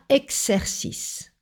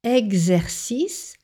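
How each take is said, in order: First: The x is voiceless, sounding like ks. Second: The x is voiced, sounding like gz. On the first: The speaker calls it wrong. "pas exercice" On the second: The speaker calls it right. "lorsque le préfixe « ex » est suivi d'une voyelle, il se prononce « ex »"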